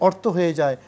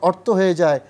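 Both takes have the same delivery.

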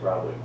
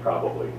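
First: A syllable is dropped from the word. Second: All three syllables of the word are pronounced. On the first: "You usually say probably. You drop off a knob" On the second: "you probably don't say probably"

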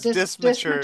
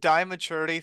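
First: The word is said with an s sound. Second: The word is said without an s sound. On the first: The speaker calls it right. "it's dismaturity" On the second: The speaker calls it wrong. "I've been calling it dimaturity for the longest time because I could not pronounce it"

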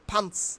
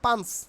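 First: The p sound is strongly aspirated. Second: The p sound is unaspirated. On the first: The speaker calls it right. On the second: The speaker calls it wrong.

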